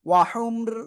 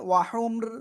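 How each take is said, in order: First: The word stops short on the 'r' sound. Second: The same.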